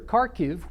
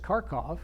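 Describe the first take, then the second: First: The name ends with a -kiv sound. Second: The name ends with a -kov sound.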